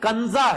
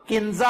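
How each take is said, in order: First: The first vowel sounds like 'a' in Kanza. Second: The first vowel sounds like 'i' in Kinza. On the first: The speaker calls it right. "ये कंजा है। काफ के ऊपर जबर है" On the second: The speaker calls it wrong. "जो नाम किंजा आप कहते हैं"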